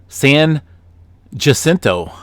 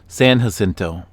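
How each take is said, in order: First: The J is said as a hard J sound. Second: The J is said as an H sound. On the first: The speaker calls it wrong. "I pronounced San Jacinto wrong" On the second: The speaker calls it right. "It's supposed to be San Jacinto, like like jalapeno"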